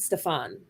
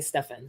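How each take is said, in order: First: The name is said the Caribbean way. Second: The name is said the northern way. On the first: "in the Caribbean, this name we I would pronounce it Stefan" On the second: "up here I hear everyone say Stefan"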